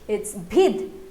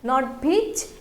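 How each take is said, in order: First: The word ends with a d sound. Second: The word ends with a ch sound. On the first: The speaker calls it right. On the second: The speaker calls it wrong.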